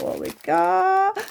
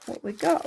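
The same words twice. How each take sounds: First: Drawn-out high sing-song; high silly voice. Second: Said in the usual way. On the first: Pretend. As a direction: play it high and slow. High slow silly take.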